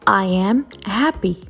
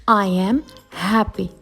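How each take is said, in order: No difference in how they are said.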